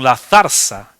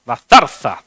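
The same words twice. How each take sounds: First: «zarza» con la segunda zeta como ese; pronunciación vacilante. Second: «zarza» lenta, con las dos zetas interdentales. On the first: Real, not acted. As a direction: decir «zarza» como «zarsa», con zeta solo al principio. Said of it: "¿cómo se dice?". («zarza» pronunciada «zarsa») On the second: Shown as a demonstration. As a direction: marcar ambas zetas de «zarza», como la th inglesa. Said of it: "con dos zetas". («zarza» despacio, con dos zetas bien marcadas)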